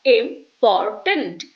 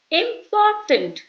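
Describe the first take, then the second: First: "important" stressed on the first syllable, slow; wrong stress. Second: "important" with a strong POR, slow; stressed correctly. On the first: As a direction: slowly lean on IM in "important". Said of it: "not important". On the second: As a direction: slowly hit the POR in "important". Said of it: "The stress is on the first syllable". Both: Shown as a demonstration.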